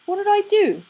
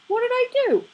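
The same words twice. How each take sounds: First: Much higher, stress on "do", falling at the end; indignant protest. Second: Much higher, stress on "I", falling at the end; indignant protest. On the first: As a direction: hit "do" in an outraged squeak. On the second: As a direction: throw the weight onto "I", higher still. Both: Acted. Crowley protests innocence.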